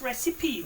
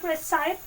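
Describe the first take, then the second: First: The word is said with three syllables. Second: The word is said with two syllables, ending 'sipe'. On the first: The speaker calls it right. "it's recipe" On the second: The speaker calls it wrong. "It's not recipe"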